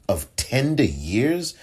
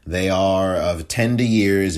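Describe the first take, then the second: First: Slow, disbelieving echo of "tender years" with a rising end; scoffing "Of tender years?"; incredulous echo. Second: Said in the usual way. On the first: Retold or imitated. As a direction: repeat it back as if it can't be serious. Mocking the judge's phrase.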